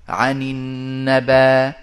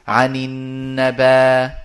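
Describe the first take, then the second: Both takes have the same delivery.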